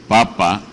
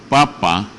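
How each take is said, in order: Both takes have the same delivery.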